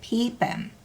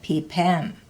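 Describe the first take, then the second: First: The stress is on the first syllable. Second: The stress is not on the first syllable. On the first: One that is filled. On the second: One who swims.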